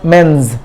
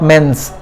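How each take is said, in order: First: The final sound is a buzzing z. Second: The final sound is a hissing s. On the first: The speaker calls it right. "then the sound becomes za" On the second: The speaker calls it wrong.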